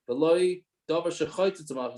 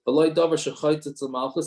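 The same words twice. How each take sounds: First: The voice falls at the end, like a statement. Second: The voice rises at the end, like a question. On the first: It sounds like something is being declared. The speaker calls it right. "It's a, a statement" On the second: It sounds like something is being asked. The speaker calls it wrong. "I said it as a question"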